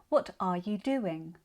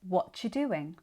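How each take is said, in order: First: Every word is said in full. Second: The word are is dropped out.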